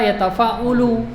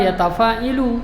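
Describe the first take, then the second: First: The vowel after the 'ain is u. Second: The vowel after the 'ain is i. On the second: "jangan pernah baca ... itu ngawur namanya"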